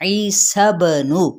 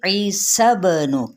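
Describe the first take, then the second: First: ईसबनु very slowly, with the ba bounced in qalqala; ईसबनु recited slowly with the ba echoing; recitation demo. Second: ईसबनु very slowly, with the lips reopening after the ba; slow ईसबनु with an echoing, released ba; open qalqala. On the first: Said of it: "सब नू दबाना नहीं है". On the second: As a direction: release the ba in ईसबनु, don't shut it off. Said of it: "दोबारा से खोल के कैसे". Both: Shown as a demonstration.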